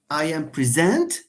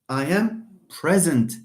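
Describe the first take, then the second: First: The stress is on the second syllable. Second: The stress is on the first syllable. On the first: The speaker calls it wrong. "يضحكوا عليك إذا قلتي هذا الشيء" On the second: The speaker calls it right. "if the word with two syllables is not a verb, stress the first one"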